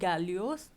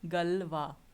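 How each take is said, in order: First: The name ends with an 'os' sound. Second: The name ends with a 'wah' sound. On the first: The speaker calls it wrong. "This is not Galios" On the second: The speaker calls it right. "but it is Galois"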